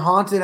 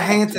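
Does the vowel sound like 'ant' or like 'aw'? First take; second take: like aw; like ant. First: The vowel sounds like the vowel in aw. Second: The vowel sounds like the vowel in ant. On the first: The speaker calls it right. "It's a haunted house" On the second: The speaker calls it wrong. "It's not a haunted house"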